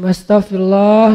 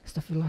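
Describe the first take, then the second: First: It is said loudly and showily. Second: It is said softly and plainly.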